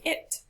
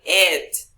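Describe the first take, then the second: First: Said in the usual way. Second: IT punched loud, as if stressed. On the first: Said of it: "You just say it". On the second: Shown as a demonstration. Teacher warning class against stressing it, IT stressed. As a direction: overstress "it" to show the wrong way. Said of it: "You cannot say it".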